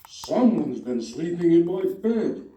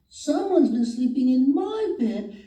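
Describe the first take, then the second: First: It is said in a big, booming voice. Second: It is said in a small, little voice. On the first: The largest bear is speaking. "Papa Bear said in his great big voice" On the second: The smallest bear is speaking. "Baby Bear said in his small voice"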